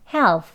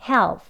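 First: The word ends with an f sound. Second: The word ends with the lips closed, p. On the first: "토끼발로 p 대신에 f를 집어넣으셔서" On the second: "입술을 살짝 붙이세요"

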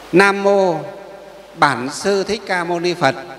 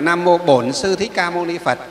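First: It uses the northern form, with "bản". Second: It uses the southern form, with "bổn". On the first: "là tiếng miền Bắc" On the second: "Miền Nam đọc là"

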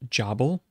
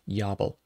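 First: The name begins with a J sound. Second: The name begins with a Y sound. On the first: The speaker calls it wrong. "this is often pronounced Jabal" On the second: The speaker calls it right. "the closer pronunciation would be to have a silent J or even a Y sound"

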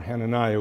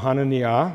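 First: The name is said with English pronunciation. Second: The name is said with Hebrew pronunciation. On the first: "or Hananiah, we say" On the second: "in Hebrew"

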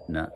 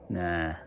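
First: The word is said short and quick. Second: The word is drawn out long.

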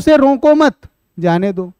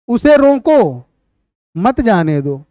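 First: The pause comes after the word 'mat'. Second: The pause comes after the word 'roko'. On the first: Do not stop him; let him go. "अर्थ क्या हुआ कि उसको मत रोको, जाने दो" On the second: Stop him; do not let him go. "अगर यही विराम चिन्ह पहले लगा दिया जाए"

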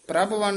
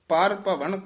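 First: It is run together as one word. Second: It is said as two separate words. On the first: The speaker calls it wrong. "ਪ੍ਰਭਵਨ ਨਹੀਂ ਕਹਿਣਾ" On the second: The speaker calls it right. "ਪਾਰ ਭਵਨ ਕਰੈ"

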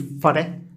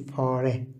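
First: The first vowel is short. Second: The first vowel is slightly lengthened. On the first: The speaker calls it wrong. "فلا نقول فره" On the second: The speaker calls it right. "بل نقول فاره"

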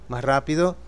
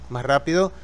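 No difference in how they are said.

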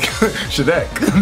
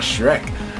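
First: The R is pronounced in a Japanese-like way. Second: The R is pronounced as in ordinary English. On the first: "That's why I say Shrek. Like" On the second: "Not Shrek"

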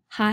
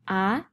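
First: The syllable starts with an audible h sound. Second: The syllable starts directly with the vowel. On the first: The speaker calls it wrong. "you might think these are ha, he, hi, ho, hu, but they're not" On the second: The speaker calls it right. "These are going to be a, e, i, o, u. Sounds just like the vowels"

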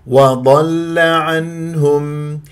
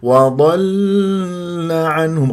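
First: The lam sound is kept short and firm. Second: The lam sound is held and drawn out. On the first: The speaker calls it right. "ما تطول جريان الصوت" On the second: The speaker calls it wrong. "غلط، صارت رخوة"

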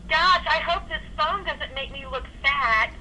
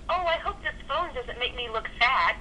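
First: It is said with strong emphasis. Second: It is said with less emphasis.

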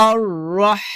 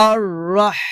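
The two takes are said the same way.

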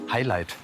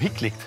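First: It is said with English pronunciation. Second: It is read out like a German word. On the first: The usual way others say the word. "wie du sagen würdest" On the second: A joking personal version of the word. "wie ich so schön sage"

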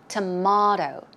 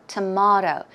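The two takes are said the same way.

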